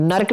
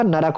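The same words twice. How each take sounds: First: "नरक" as one syllable "nark"; clustered rk. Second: "नरक" lower, as "na-rak"; separate syllables. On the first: Teacher showing students the mistake, नरक said "nark". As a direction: run r and k together in नरक. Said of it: "और नरक नहीं होता". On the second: Teacher giving students the correction, नरक said "na-rak". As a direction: put a vowel before the k in नरक. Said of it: "नरक होता है". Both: Shown as a demonstration.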